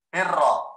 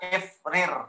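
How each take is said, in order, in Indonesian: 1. Kedua bunyi r menyatu menjadi satu r ganda. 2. Kedua bunyi r dipisahkan oleh sebuah vokal.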